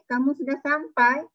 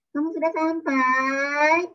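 First: The phrase is said as a lively exclamation. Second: The phrase is drawn out slowly and flatly. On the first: The speaker calls it right. "dia ada tanda seru dekat belakang" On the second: The speaker calls it wrong. "Tak boleh baca kamu sudah sampai. Tak ada baca macam tu. Kalau sudah sampai panjang-panjang macam tu, tak ada tanda seru"

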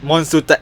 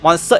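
First: It is said with a Japanese-style pronunciation. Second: It is said with a plain English pronunciation. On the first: This is the Japanese name. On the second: This is the international name.

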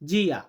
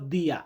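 First: It starts with a 'j' sound, Brazilian style. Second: It starts with a 'd' sound, European style. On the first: "আমরা লাতিন যেটা উচ্চারণ করব সেটা করব জিয়া" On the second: "আর যেটা ইউরোপিয়ান আমরা বলবো সেটা বলবো দিয়া"

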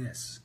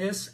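First: The voice is lower and resonates in the chest. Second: The voice is high-pitched and nasal. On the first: The speaker calls it right. "Can you hear the difference between this and this?" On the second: The speaker calls it wrong. "Can you hear the difference between this and this?"

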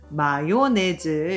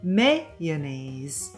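First: Four syllables are said with even stress. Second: Three syllables with strong stress on the first. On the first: The speaker calls it wrong. "4음절로 같은 강세로 가는 게 아닌" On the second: The speaker calls it right. "3음절에다가 앞 첫 음절에 강강세가 확실히 있는"

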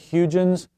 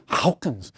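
First: The name is said without a guttural throat sound. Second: The name is said with a guttural throat sound. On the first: The speaker calls it wrong. "It looks like Huygen's" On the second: The speaker calls it right. "It's probably got a guttural sound too"

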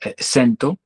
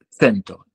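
First: The word is said in the personal variant. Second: The word is said in the standard pronunciation. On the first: "io dice sento" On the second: "se in le pronunciazioni standard"

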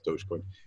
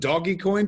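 First: The first part sounds like 'dohj'. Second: The first part sounds like 'doggy'. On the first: The speaker calls it right. "no, it's Dogecoin" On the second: The speaker calls it wrong. "the first time I said it"

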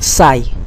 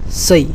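First: The vowel glides like the English word 'sigh'. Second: The vowel sounds like the English word 'say'. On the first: The speaker calls it wrong. "Don't produce like sigh" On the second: The speaker calls it right. "So just pronounce here like say"

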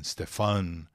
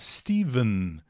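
First: The middle consonant is an f sound. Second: The middle consonant is a v sound. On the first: "alguns nomes com P H que é pronunciado Stefan" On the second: "O som é de V de vegano"

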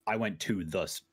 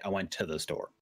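First: The words 'went to' are said fully and separately. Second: The words 'went to' are run together and reduced. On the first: It is the careful way of saying it. "Instead of saying" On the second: It is the casual everyday way of saying it. "I would say"

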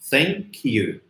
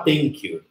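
First: The word starts with a careful th sound. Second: The word starts with a plain t sound. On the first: "passam meia hora batendo no som do TH" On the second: "embora o som não seja esse"

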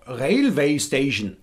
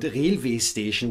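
First: It has a Hessian German accent with diphthongs. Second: It has a standard German accent without diphthongs. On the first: "for Hessians it's so easy to pronounce words like overdose or railway station" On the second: "with a standard German accent"

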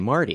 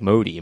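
First: The name has a clear r sound. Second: The name has no r sound. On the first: The speaker calls it right. "I couldn't say my own name" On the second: The speaker calls it wrong. "I would say like Modi"

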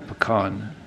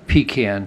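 First: Pecan is said with the Northern pronunciation. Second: Pecan is said with the Southern pronunciation. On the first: The speaker calls it wrong. "what the Yankees call pecan" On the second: The speaker calls it right. "the proper pronunciation of some of the street names"

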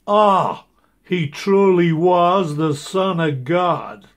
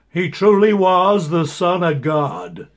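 First: The line is said with added awe. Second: The line is said plainly, without awe.

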